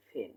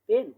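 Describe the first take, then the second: First: ফেন as "phen", puff after p; aspirated P. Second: Said in the usual way. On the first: Shown as a demonstration. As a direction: release breath on the first sound of ফেন. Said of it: "উচ্চারণ হবে কি?". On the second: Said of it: "No, no, no".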